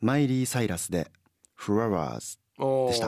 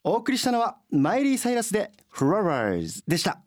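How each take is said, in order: First: It is said in a low, flat tone. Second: It is said with lively, varied intonation.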